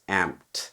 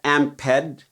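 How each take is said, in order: First: The word is said with one syllable. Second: The word is said with two syllables. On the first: It means something that was amplified. "the past tense amped" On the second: It names an amp inside a pedal. "a different enunciation of the Amped one's name"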